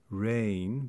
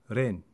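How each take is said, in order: First: The vowel glides and is lengthened. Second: The vowel is a single pure sound.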